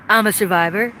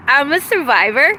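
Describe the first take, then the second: First: I'm a survivor dropped lower, to himself; a lower echo of the first line; lower, settled repeat. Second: Said in the usual way. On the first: Shown as a demonstration. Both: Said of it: "I'm a survivor repeated".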